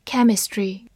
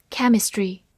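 Both takes have the same delivery.

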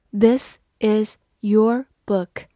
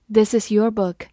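First: Slow, each word set apart; word-by-word reading. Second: Said in the usual way. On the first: Shown as a demonstration. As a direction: read it slowly, pausing after every word. Word-by-word model reading, then normal take.

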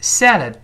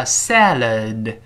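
First: Salad said quickly, the d held without release; short, high salad with a swallowed final d; unreleased final d. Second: Salad drawn out slowly, both syllables full; slow teaching model of salad; slow reading. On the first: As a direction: stop the breath on salad's last d. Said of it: "读快了之后，最后那个的失去爆破". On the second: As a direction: say "salad" slowly with the final d sounded. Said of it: "读慢了叫salad". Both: Shown as a demonstration.

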